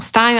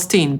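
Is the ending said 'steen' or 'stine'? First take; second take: stine; steen. First: The vowel sounds like the word 'eye'. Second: The vowel sounds like the word 'see'. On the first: "przeczytamy po angielsku najczęściej przez Stein" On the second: "wymawiamy tę końcówkę jako Steen"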